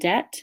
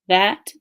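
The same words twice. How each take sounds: First: The word begins with a d sound. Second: The word begins with a th sound.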